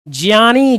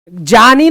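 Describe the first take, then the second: First: The first syllable uses a 'j' plus 'ya' blend. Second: The first syllable does not use a 'jya' blend. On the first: The speaker calls it right. "ज और इया से मिलकर बनता है ज्ञानी" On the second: The speaker calls it wrong. "ज्ञानी नहीं"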